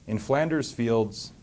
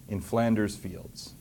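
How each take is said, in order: Both takes have the same delivery.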